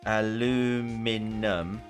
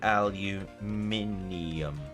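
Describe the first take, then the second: First: It is said the American way, without the extra i. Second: It is said the British way, with the extra i.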